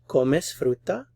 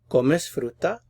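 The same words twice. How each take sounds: First: The voice rises at the end. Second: The voice rises at the end.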